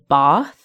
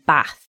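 First: It is said with a southern English accent. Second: It is said with a northern English accent. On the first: "people traditionally from the south of England will say Bath" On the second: "people from the north of England will say Bath"

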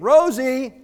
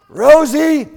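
First: The name is called at normal volume. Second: The name is called more loudly.

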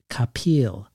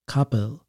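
First: The name ends sounding like the word peel. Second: The name ends not sounding like peel. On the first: This is how almost everyone says the name. "like an orange peel" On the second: This is how the name's owner says it. "it sounded more like Kapil to me"

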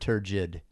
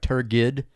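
First: The g is pronounced as a soft j. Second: The g is pronounced as a hard g.

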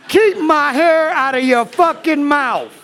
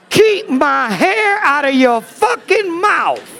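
First: The line is said quickly. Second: The line is said at a slower pace.

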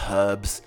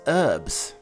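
First: The word starts with a pronounced h sound. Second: The word starts with a silent h.

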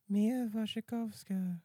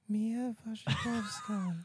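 First: It is said without a put-on Australian accent. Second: It is said in a put-on Australian accent.

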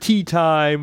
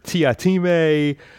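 First: The name is said as two syllables, tea-time. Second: The name is said as three syllables, tee-ah-time. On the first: "depending how you pronounce it" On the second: "or Mr. Tiatime, depending how you pronounce it"

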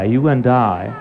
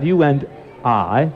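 First: The words are said linked together, with no breaks between them. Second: The words are said separately, with breaks between them. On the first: The speaker calls it right. "connect it with I. You and I. Connect the two" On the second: The speaker calls it wrong. "Instead of you and I"

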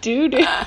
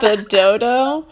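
First: Both syllables have an 'oo' vowel. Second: Both syllables have an 'oh' vowel. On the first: The speaker calls it wrong. "I just always pronounced it in my head like doo-doo" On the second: The speaker calls it right. "do you mean the dodo?"

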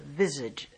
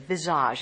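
First: The word has an English pronunciation. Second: The word has a French pronunciation.

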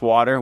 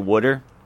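First: The first syllable sounds like 'wah', with a t sound. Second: The first syllable sounds like 'wood', with a d sound. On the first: This is the general pronunciation. "I like changed the way I say it now" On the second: This is the regional Philadelphia pronunciation. "in Philly, I used to say wooder"

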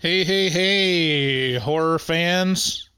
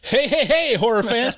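First: The greeting is said with low energy. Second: The greeting is said with high energy. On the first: The speaker calls it wrong. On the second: The speaker calls it right.

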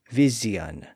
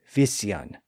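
First: The middle consonant is a buzzing z sound. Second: The middle consonant is a hissing s sound. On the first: This is an intermediate stage of the change. "it became a Z sound" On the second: This is the original older pronunciation. "pronounced like they were spelled"

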